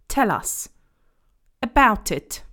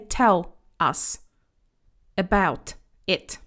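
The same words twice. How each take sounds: First: The words run together like one word. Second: Each word is said separately, without linking. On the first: The speaker calls it right. "It's like one word" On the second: The speaker calls it wrong. "So we don't say"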